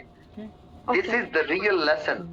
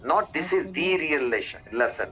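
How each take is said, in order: First: 'The' is said with a short weak vowel. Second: 'The' is said with a long 'ee' vowel. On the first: The speaker calls it right. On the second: The speaker calls it wrong.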